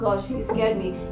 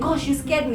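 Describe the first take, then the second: First: It is said flatly, without feeling. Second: It is said with a frightened, startled feeling. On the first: The listener does not catch the feeling. The speaker calls it wrong. "You cannot be like" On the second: The listener catches the feeling of fright. The speaker calls it right. "You you have to be like"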